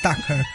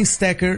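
First: It is said with an English accent. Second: It is said in the speaker's usual way.

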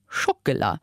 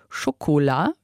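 First: The second syllable is weakened and reduced. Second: The second syllable keeps a full o vowel. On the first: This is the Luxembourgish form. "wir sagen Schokolade" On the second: This is the French-style form. "wir sagen nicht Schokolade, wie am Französischen"

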